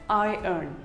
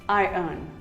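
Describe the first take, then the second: The two takes are said the same way.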